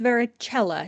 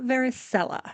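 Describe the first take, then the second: First: The c is said as a hard k sound. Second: The c is said as a soft sound. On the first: The speaker calls it right. "it is pronounced varicella" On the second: The speaker calls it wrong. "not varicella. There is no soft C in Latin pronunciation"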